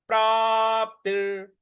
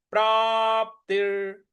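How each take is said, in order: Both takes have the same delivery.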